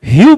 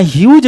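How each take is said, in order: First: ह्यू ending on an open oo, no j; correct pronunciation, silent gh. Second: ह्यूज with a final j sound; mistaken pronunciation. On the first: Teacher correcting students on the poet's name, ह्यू with silent gh. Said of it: "यहाँ GH silent है". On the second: Teacher warning students off a misreading, mispronounced ह्यूज. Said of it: "यहाँ ह्यूज नहीं पढ़िएगा". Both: Shown as a demonstration.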